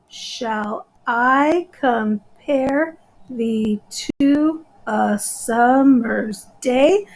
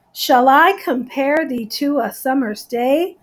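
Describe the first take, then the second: First: Very slow, each syllable set apart; slow, deliberate syllable-counting delivery. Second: Said in the usual way. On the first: Shown as a demonstration. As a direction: break the line into countable syllables. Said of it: "And I count them". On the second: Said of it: "So it's very rhythmic".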